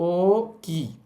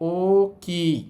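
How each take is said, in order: No difference in how they are said.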